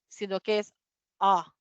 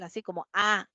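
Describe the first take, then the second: First: The vowel is a short, barely opened 'uh'. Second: The vowel is a wide open 'ah'. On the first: The speaker calls it right. "Apenas es como que abrimos la boca y decimos A" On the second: The speaker calls it wrong. "no es como una A normal"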